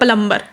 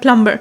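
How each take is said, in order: First: It is said with a local spelling pronunciation. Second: It is said with a native English pronunciation. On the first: "हम क्या बोलते हैं" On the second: "ये होता है native variety में"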